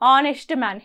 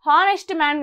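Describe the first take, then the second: First: The word starts directly with a vowel sound. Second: The word starts with an audible h sound. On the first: The speaker calls it right. "హెచ్ అనేది silent" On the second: The speaker calls it wrong. "హానెస్ట్ man కాదు"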